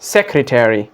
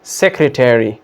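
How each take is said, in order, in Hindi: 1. American उच्चारण, अंत पूरा 'terry' जैसा बोला जाता है। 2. अमेरिकन उच्चारण, अंत पूरा 'terry' जैसा बोला जाता है।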